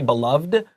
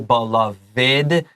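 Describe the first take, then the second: First: The ending is a plain d sound. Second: The ending is a separate short id syllable. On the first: The speaker calls it wrong. "We we shouldn't say beloved" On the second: The speaker calls it right. "We should say beloved. 这个短 id 的发音"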